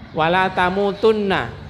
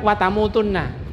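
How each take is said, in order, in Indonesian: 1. Frasa diucapkan lengkap dengan setiap suku katanya. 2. Suku kata kedua dihilangkan dari frasa.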